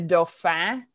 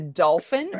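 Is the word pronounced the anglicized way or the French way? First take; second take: French; anglicized. First: The word is said the French way. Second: The word is said the anglicized way.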